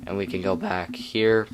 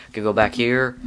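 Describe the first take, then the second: First: Voice crack. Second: Said in the usual way. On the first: Real, not acted. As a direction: voice cracking mid-phrase. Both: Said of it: "Ooh, voice crack".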